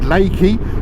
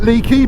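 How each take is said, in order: First: The first vowel sounds like 'ay'. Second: The first vowel sounds like 'ee'. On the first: This is how the place is actually called. The speaker calls it right. "I've been told it's called Lakey" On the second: This is how the speaker used to say it. The speaker calls it wrong. "I've been calling it Leaky"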